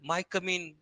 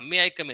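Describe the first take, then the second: First: 'May I' is merged into one syllable, 'my'. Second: 'May' and 'I' are said as separate words. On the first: The speaker calls it wrong. "आमच्या इथले पण कोणी माय coming म्हणायचे" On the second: The speaker calls it right. "मे आय कम इन असं म्हणतात"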